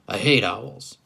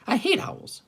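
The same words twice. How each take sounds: First: It is spoken in the dog character's voice. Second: It is spoken in the bird character's voice. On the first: The speaker calls it wrong. "Oops, sorry, that's the dog" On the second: The speaker calls it right. "the bird, the mockingbird"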